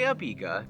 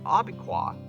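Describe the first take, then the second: First: The name ends with a plain 'ka' sound. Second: The name ends with a 'kwa' sound. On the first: This is how locals say the name. The speaker calls it right. "I say Abika" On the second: This is how outsiders say the name. The speaker calls it wrong. "I've said Abiqua before, and I've been called an idiot"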